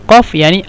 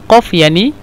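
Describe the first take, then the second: Both takes have the same delivery.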